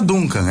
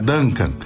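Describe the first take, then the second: First: The name is said with Portuguese sounds. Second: The name is said with English sounds. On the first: The speaker calls it wrong. "não é Duncan" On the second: The speaker calls it right. "é de origem inglesa e, portanto, ... é Duncan"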